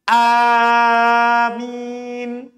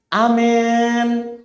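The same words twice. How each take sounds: First: The first vowel is long; the m is single. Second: The vowel after m leans toward an e sound. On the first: "boleh dipanjangkan A-nya, hamzanya. Mimnya tidak ditasydid" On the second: "Dibaca imalah, yaitu suara alif diarahkan ke ya"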